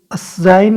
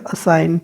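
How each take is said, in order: First: "असाइन" with a j-like g sound put in. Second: "असाइन" as a-sain, no g; silent G. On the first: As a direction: voice the silent g in "असाइन". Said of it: "असाइन नहीं बोलेगा". ("असाइन" में जी की आवाज़ के साथ) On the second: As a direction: drop the g in "असाइन". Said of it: "जी आ रहा है लेकिन साइलेंट है". ("असाइन" में जी silent) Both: Shown as a demonstration.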